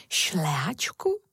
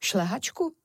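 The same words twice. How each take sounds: First: Slow, low start swinging up into a question; puzzled wonder. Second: Quick echo question in a lighter voice; ant's reply. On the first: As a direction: draw the word out in puzzlement. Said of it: "podivila se Moja". (protáhle a udiveně) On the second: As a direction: toss it back briskly as a question. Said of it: "řekl mravenec". (krátká otázka mravenečka, lehčím hláskem) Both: A narrator's reading.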